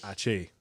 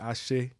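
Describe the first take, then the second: First: It is said with a Cuban pronunciation. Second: It is said with a native Yoruba pronunciation. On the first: "in Cuba we say ache with a with a semi proper Yoruba accent" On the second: "They'll say ache"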